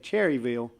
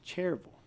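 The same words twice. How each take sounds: First: The name is said in full, three syllables. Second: The name is shortened to two syllables, Cherville. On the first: The speaker is talking to outsiders. "when I'm outside the county, I usually say Cherryville" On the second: The speaker grew up locally. "inside the county, you can't say that"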